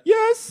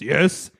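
First: It is said in a high-pitched voice. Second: It is said in a low-pitched voice. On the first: "can you do a high voice?" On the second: "Can you do a low voice?"

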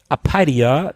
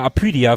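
First: The name is pronounced the English way. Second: The name is pronounced the German way. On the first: "wenn man es Englisch ausspricht" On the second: "wir haben ja immer Apidia früher gesagt"

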